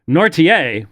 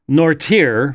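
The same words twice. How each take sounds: First: The name is said with a French-style pronunciation. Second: The name is said with an English-style pronunciation. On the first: The speaker calls it right. "Nortier would be correct" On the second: The speaker calls it wrong. "every French person on the planet is is going to spit at at that pronunciation because that's not right"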